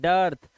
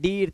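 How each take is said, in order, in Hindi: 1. स्वर 'ur' ध्वनि है। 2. स्वर लंबी 'ee' ध्वनि है। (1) "इसे डर्थ पढ़ते हैं" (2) "अब इसे डीर्थ नहीं पढ़ेंगे"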